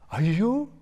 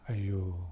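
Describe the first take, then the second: First: It sounds like a delightful surprise. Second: It sounds full of pity and sympathy.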